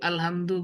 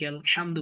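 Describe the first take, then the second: First: The h is a plain, light breath. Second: The h is breathed from deep in the throat. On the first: The speaker calls it wrong. "আলহামদু বলা যাবে" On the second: The speaker calls it right. "আলহামদু বলতে হবে"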